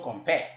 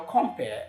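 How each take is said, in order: First: The stress is on the second syllable. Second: The stress is on the first syllable. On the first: It is the verb form. The speaker calls it wrong. "and not as a shall compare" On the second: It names the person, a noun. The speaker calls it right. "because it's a noun, the stress should fall on the first syllable"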